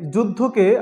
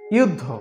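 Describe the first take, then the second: First: The word begins with a 'j' sound. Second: The word begins with a 'y' sound.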